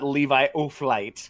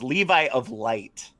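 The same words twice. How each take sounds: First: The name is run together like 'O'Flight'. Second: The name is said clearly as 'of Light'. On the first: The speaker calls it wrong. "not not" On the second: The speaker calls it right.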